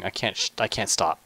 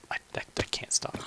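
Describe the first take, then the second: First: Said in the usual way. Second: Hushed confessing whisper. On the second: Real, not acted. Gamer admitting he can't stop playing, hushed whisper. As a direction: whisper it like a guilty secret.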